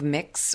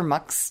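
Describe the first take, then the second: First: The vowel sounds like the i in 'mix'. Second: The vowel sounds like the u in 'mux'. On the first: "It's either M-I-X" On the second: "or M-U-X"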